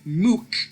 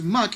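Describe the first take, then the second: First: The vowel is an 'oo' sound. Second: The vowel is a short 'uh' sound. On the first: "That is wrong" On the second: "pronounce muck as mook"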